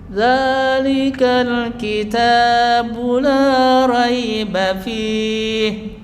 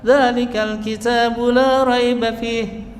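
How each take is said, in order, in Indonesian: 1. Dibaca pelan dengan vokal panjang. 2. Dibaca cepat dengan vokal lebih pendek. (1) "satu alif agak panjang karena dia lambat" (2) "Kalau dia ingin agak"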